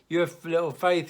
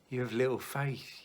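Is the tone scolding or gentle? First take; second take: scolding; gentle. First: It is said in a scolding, contemptuous tone. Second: It is said in a gentle, kind tone.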